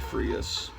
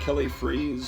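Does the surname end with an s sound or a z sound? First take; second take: s sound; z sound. First: The surname ends with an s sound. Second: The surname ends with a z sound. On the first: The speaker calls it right. "It's probably Freas" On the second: The speaker calls it wrong. "I used to pronounce it Kelly Freeze"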